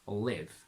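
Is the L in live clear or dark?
dark. The L is dark.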